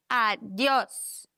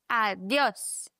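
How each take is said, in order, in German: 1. Die Betonung liegt auf der letzten Silbe. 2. Die Betonung liegt auf der letzten Silbe.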